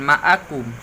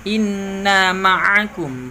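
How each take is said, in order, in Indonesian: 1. Konsonan di tengah itu hamzah biasa (glottal stop). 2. Konsonan di tengah itu ain yang berat di tenggorokan dan bersuara.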